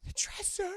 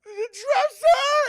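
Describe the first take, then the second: First: Put-on high, hushed fearful child; high quiet frightened line. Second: High, slow, loud sobbing scream of The dresser!; high crying shout; terrified scream. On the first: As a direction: point to it in fear, small voice. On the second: Retold or imitated. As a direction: wail The dresser! in terror. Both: Scared girl points out the dresser.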